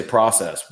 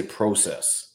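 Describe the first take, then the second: First: Process said with PRAH, American way; American pronunciation. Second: Process said with PROH, slow and soft; Canadian pronunciation. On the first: Showing how Americans say process, American vowel. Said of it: "an American will say process". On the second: Showing how Canadians say process, long oh. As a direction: say process with a long oh vowel, slowly. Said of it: "We'll say process". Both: Shown as a demonstration.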